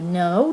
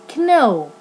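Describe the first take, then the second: First: The word begins with an n sound. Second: The word begins with a k sound. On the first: The speaker calls it right. "Here we say no" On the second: The speaker calls it wrong. "not kno"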